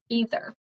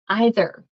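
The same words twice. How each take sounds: First: The first vowel sounds like 'ee'. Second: The first vowel sounds like 'eye'.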